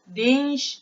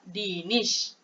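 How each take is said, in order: First: The n runs straight into the sh. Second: A short vowel separates the n and sh. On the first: The speaker calls it wrong. "Takkan nak baca dinsh" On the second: The speaker calls it right. "cara bacaan dia"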